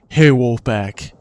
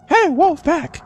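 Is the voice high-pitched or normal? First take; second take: normal; high-pitched. First: It is said in a normal pitch. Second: It is said in a high pitch.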